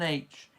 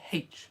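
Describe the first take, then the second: First: The letter name starts with a vowel sound. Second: The letter name starts with an h sound. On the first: The speaker calls it wrong. "It's not an H" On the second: The speaker calls it right. "You pronounce the H in it"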